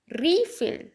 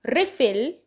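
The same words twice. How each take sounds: First: रीफिल with FILL stressed and lifted high; रीफिल: second syllable hit high; verb stress, second syllable. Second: रिफिल with REE stressed; रिफिल: first syllable hit; noun stress, first syllable. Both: Shown as a demonstration. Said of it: "तो difference देखो".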